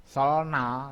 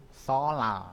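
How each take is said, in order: First: "solna" with l then a distinct n; as written. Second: "solal" with the n turned into l; as pronounced. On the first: Teacher shows learners the spelled form "solna", as written. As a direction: say "solna" letter by letter, unassimilated. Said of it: "Ini tulisannya solna ya". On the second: Teacher shows learners how it is read, assimilated "solal". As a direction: let the l carry through "solal". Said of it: "tapi membacanya adalah solal". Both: Shown as a demonstration.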